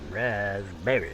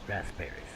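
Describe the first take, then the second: First: The first part sounds like raz, without p. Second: The first part sounds like rasp, with p. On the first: The speaker calls it wrong. "I was saying wrong" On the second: The speaker calls it right. "Nobody said it was rasp"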